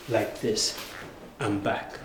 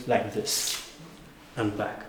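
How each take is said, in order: Both takes have the same delivery.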